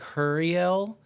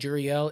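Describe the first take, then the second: First: The name begins with an H sound. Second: The name begins with a J sound. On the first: It is the Spanish way of saying the name. "a lot of people pronounce it like Huriel, like hurry up" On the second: It is the English way of saying the name. "if you say it in English like Juriel, it's like jury"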